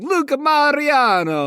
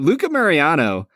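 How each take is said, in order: First: It is said in an exaggerated Italian accent. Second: It is said in the speaker's plain accent.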